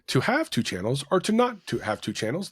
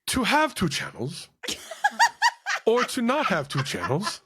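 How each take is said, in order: First: It is read in a plain, ordinary voice. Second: It is read in a grand, theatrical voice.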